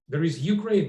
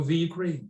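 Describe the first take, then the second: First: "Ukraine," said firmly with no article, falling tune; correct form, firm. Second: "the Ukraine." with the clearly stressed as the wrong form. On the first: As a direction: state "There is Ukraine," flatly as the final word. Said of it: "that's it". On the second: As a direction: lean on "the" in "the Ukraine." to reject it. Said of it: "Then there is no". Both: Shown as a demonstration.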